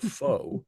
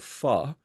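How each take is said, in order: First: The word is pronounced the common anglicized way. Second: The word is pronounced close to the Vietnamese way. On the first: The speaker calls it wrong. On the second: The speaker calls it right.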